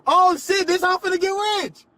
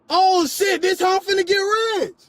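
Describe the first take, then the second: First: Sarcastic yell. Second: Shouting. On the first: Mocking yell on the floor. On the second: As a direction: shout it out sarcastically. Repeats it shouting. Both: Real, not acted.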